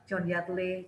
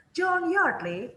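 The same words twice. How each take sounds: First: "John Yardley" said low and flat, no rise; the way not to say it; flat wrong tune. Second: John Yardley with a high rise, slow; rising John Yardley. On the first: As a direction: drop the pitch on "John Yardley" instead of rising. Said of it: "jangan gitu". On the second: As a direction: lift "John Yardley" up as a question. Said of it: "ya kamu jangan". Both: Shown as a demonstration.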